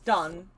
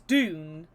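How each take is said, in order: First: The vowel is a short 'uh' sound. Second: The vowel is a long 'oo' sound. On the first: The speaker calls it right. "it is done. That is exactly what it is" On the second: The speaker calls it wrong. "everyone says my surname is Doon"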